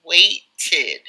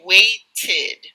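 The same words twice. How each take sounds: First: The final -ed ending is clearly, even exaggeratedly, pronounced. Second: The same.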